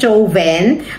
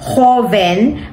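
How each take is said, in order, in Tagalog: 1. Binabasa ito sa paraang Filipino, bilang pangalan. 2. Binabasa ito sa paraang Espanyol, bilang salita. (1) "ang name niya ay Joven" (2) "ang pronunciation niyan dito sa Spanish is joven"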